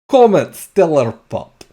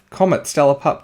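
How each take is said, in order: First: It is said in a put-on Russian accent. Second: It is said in the speaker's normal accent. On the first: "my very bad Russian accent" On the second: "I'm gonna stop with the accent"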